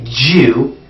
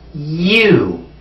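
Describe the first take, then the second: First: The word begins with a j sound. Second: The word begins with a y sound. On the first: The speaker calls it wrong. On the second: The speaker calls it right. "The proper pronunciation is you"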